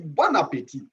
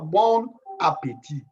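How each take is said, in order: First: Bon links into appétit with an n sound. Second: Bon is said apart, with no linking n. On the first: The speaker calls it right. "Il faut faire la liaison ici. On dit bon appétit" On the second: The speaker calls it wrong. "On ne dit pas bon appétit"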